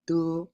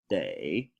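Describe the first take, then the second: First: The syllable is light and toneless. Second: The syllable carries a full tone. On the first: It is the structural particle. "one is de, which is a structural particle" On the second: It is the verb. "One is day, which is a verb"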